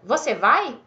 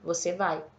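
First: The pitch rises at the end. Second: The pitch stays flat at the end.

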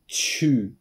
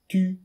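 First: It starts with a 'ch' sound. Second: It starts with a crisp 't' sound. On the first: The speaker calls it wrong. "chu ではなく" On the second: The speaker calls it right. "tu は力を溜めて強く出しましょう"

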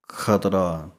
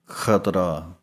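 Both takes have the same delivery.

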